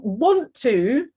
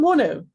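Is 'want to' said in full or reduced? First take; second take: full; reduced. First: Both words are said fully and separately. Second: The words are blended quickly into one reduced form. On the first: "want to can quite often become" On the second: "because it's just quick"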